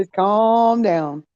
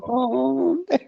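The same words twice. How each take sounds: First: Slow calm down. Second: Laughing. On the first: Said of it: "voicing the rooster's plea". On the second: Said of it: "repeats calm down laughing". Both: Pretend.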